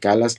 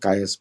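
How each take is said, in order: First: The name is said with an L sound. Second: The name is said without an L sound. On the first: "कैलास नहीं बोल रहा हूँ" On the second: "वहाँ का एल एल silent होता है, इसलिए कायस बोल रहा हूँ"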